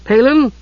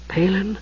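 First: High questioning call. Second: High, softened questioning call; soft voice. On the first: Usha calling into Palin's opening room, calling out. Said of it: "Usha called". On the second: Usha at Palin's shut door, soft-voiced. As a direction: call gently through a closed door. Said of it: "she said in a soft voice". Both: A narrator's reading.

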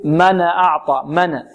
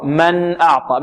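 First: ن of من released with a little vowel, "mana"; bounced n. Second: ن of من closed cleanly, no vowel after it; still n. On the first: Teacher imitates the common recitation mistake, bounced n in من. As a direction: bounce the n in من before أعطى. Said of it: "يقلقل النون أو يحركها". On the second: Teacher corrects the reciters' mistake, still n in من. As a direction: hold the n still in من, then أعطى. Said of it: "لا، خطأ". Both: Shown as a demonstration.

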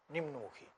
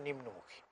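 No difference in how they are said.

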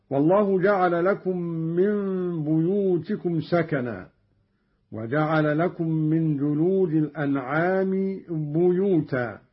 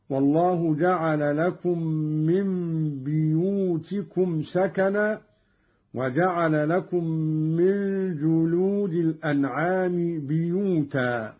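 First: Said in the usual way. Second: بيوتكم and بيوتا with "i" on the ba, "biyutikum", "biyuta"; Qalun's kasra reading. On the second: Shown as a demonstration. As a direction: start both بيوتكم and بيوتا with "bi", not "bu". (بيوتكم وبيوتا بكسر الباء) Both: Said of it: "قرأ قالون بكسر الباء أيضًا".

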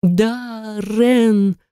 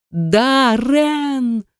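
First: Screaming. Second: High, desperate scream of Darren's name. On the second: Heroine screaming for her lost husband at full voice. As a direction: scream it with all your lungs. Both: A narrator's reading. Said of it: "закричала во всю силу своих лёгких".

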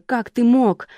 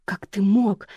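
First: Higher, louder furious accusation; angry outburst. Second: Accusing. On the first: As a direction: hurl it at him. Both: A narrator's reading. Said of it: "накинулась она на Ника".

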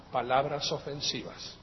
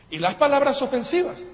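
First: Said in the usual way. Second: "palabras ofensivas" said higher and louder, with a rising push on "palabras"; raised, pointed voice on "palabras ofensivas"; angry emphasis. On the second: Shown as a demonstration. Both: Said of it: "uno no las dice con una sonrisa".

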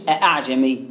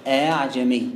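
First: أعجمي with a hard glottal catch on the hamza; slow أعجمي, hamza fully stopped instead of eased; full hamza, as counterexample. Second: أعجمي with the second hamza softened, between hamza and alif; low, level recited أعجمي with a gliding hamza; eased hamza. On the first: Teacher showing what to avoid, أعجمي with a hard hamza. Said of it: "مش أعجمي". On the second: Teacher showing students the eased hamza, أعجمي with softened second hamza. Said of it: "بالهمزة المسهلة". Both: Shown as a demonstration.

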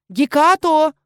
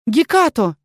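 First: High loud call into the alley. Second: Calling out. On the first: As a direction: call the cat's name loudly. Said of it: "позвала я". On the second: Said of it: "Я повторила окрик". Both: Acted.

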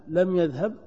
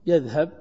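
First: لم said with a light rise, then يذهب; stress on لم. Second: Said in the usual way. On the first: Shown as a demonstration. Teacher stresses لم for the class. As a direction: lean on لم to show the negation. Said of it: "تنفي الذهب". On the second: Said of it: "تثبت الذهب".

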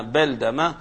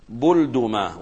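First: بلدمة said beldama, open "a" after b and d; fatha on both letters. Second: بلدمة said bulduma, "u" after b and d; damma on both letters. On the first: Teacher showing the second vowelling, بلدمة as beldama with fatha. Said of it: "وإذا قلنا بفتحهما". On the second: Teacher showing the first vowelling, بلدمة as bulduma with damma. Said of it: "إذا قلنا بضم الباء والدال". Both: Shown as a demonstration.

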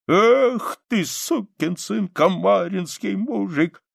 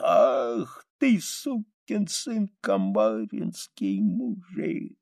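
First: Sung, high, slow, loud folk-song opening; sung, drunken soldier's Kamarinskaya; singing. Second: Sung, slow, fading, broken song; sung, last faint verse of a dying man; dying singing. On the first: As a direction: sing it out lustily, stretching the words. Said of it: "и он запел". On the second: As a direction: sing it weakly, stretching and dropping away. Dying soldier sings his last song. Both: A narrator's reading.

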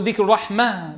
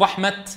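First: رحمة said as raħmah, pausal ha; rahma ending in ha. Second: رحمة ending in a clear t, the taa sounded; رحمة said as raħmat, taa kept; rahmat ending in ta. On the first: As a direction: stop on رحمة as رحمه with a final h. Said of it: "بالهاء أم تقول". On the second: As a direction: stop on رحمة keeping the final t. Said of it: "بالتاء؟". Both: Shown as a demonstration.

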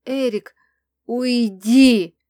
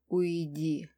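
First: Loud roar swelling on the last word; furious roar. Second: Low, soft growl on an exhale; restrained growl. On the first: Crown prince orders Erik out, roaring. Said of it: "взревел кронпринц". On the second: Angry mage tells her to go, low growl. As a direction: breathe it out as a quiet, angry order. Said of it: "выдохнул и рыкнул". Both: A narrator's reading.

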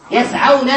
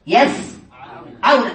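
First: Said in the usual way. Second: يسعون drawn out very slowly, split after the first syllable; teacher slowly separating the syllables of يسعون; broken into parts. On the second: Shown as a demonstration. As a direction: say يسعون in two slow parts with a long pause between. Teacher breaks word into parts.

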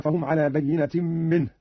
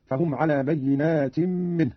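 First: Said in the usual way. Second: "بينات" as plural, long aa before the ت; slow reading, bayyinaatin for "بينات"; alif after nun. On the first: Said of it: "قرأ قالون بألف بعد النون". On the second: Shown as a demonstration. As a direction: lengthen the vowel after the ن in "بينات". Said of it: "بألف بعد النون على الجمع هكذا".

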